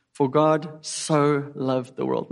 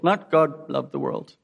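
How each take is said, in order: First: Slow, leaning hard on "so" in "For God so loved the world"; stress on so. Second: Said in the usual way. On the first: Shown as a demonstration. Preacher to congregation, stretching "so" slowly. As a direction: draw out "so", every word slow and weighty.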